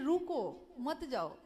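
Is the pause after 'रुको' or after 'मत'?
after रुको. The pause comes right after 'रुको'.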